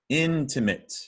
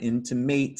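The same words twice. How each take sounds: First: The last syllable sounds like 'it'. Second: The last syllable sounds like 'mate'. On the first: The speaker calls it right. "sounds like I T" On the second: The speaker calls it wrong. "Not intimate. It looks like mate"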